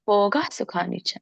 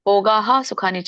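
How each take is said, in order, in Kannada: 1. bhogah ನ ಕೊನೆಯ h ಕೇವಲ ಮೆಲ್ಲಗೆ ಕೇಳಿಸುತ್ತದೆ. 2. bhogah ನ ಕೊನೆಯ h ಪೂರ್ಣವಾಗಿ ಉಚ್ಚರಿಸಲ್ಪಡುತ್ತದೆ. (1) "ಸ್ವಲ್ಪ ಹಾ ಬರ್ಬೇಕು" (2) "ಭೋಗಾಹ ಸುಖ ನಿಚ ಅಲ್ಲ"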